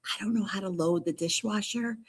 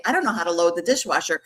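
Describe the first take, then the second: First: Hushed, soft stage whisper; confiding whisper. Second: Said in the usual way. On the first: Pretend. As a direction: whisper it like an embarrassing secret. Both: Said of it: "well, I'm gonna whisper to you".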